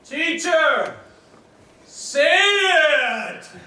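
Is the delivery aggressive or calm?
aggressive. It is said like a brash wrestling challenge. A confrontational challenge to fight.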